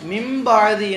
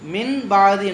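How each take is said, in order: First: The n becomes m, words joined together. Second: The n is said clearly, words kept apart. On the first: The speaker calls it right. "மிம்பாதி என்று அப்படி சேர்த்தி ராகமா படிக்கணும்" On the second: The speaker calls it wrong. "மின் பாதி என்று சொல்லக்கூடாது"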